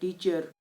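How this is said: It is said with a South Asian accent. "हम कहते हैं"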